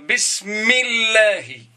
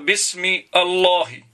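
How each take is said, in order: First: The two words are joined into one smooth word. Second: The two words are said separately with a break. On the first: The speaker calls it right. "Je vais dire bismillahi" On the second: The speaker calls it wrong. "Je ne peux pas dire bismi Allahi"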